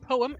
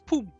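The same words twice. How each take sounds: First: The first vowel is an English 'oh' sound. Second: The first vowel is an 'oo' sound. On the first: "O E, like in poem" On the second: "in Dutch ... is pronounced as an U. So it's poem"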